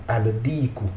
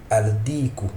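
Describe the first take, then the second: No difference in how they are said.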